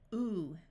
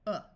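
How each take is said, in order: First: The vowel is a long ooh sound. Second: The vowel is a short uh sound. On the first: "Long sound is ooh" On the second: "The short sound is uh"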